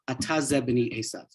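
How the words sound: It is said as a flat, factual statement. He decides that this is his son. "Almost in a um, factual statement"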